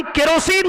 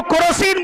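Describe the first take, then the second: First: केरोसिन with an E in the first syllable, ke-ro-seen; correct kerosene. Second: केरोसिन turned into "ko-ro-seen"; wrong kerosene. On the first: (केरोसिन का सही उच्चारण "के-रोसीन") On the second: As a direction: say केरोसिन with an O in the first syllable, ko-ro-seen. (केरोसिन का गलत उच्चारण "कोरोसीन") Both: Shown as a demonstration. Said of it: "केरोसिन को केरोसिन बोलते हैं".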